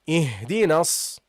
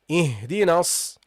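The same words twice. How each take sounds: The two takes are said the same way.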